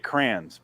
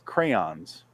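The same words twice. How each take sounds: First: The word has a Midwestern regional pronunciation. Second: The word has the standard pronunciation. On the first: The speaker calls it wrong. "because we're from the Midwest, Adam and I ... So we say crayons" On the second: The speaker calls it right. "but it's crayons ... I know that's how it's pronounced"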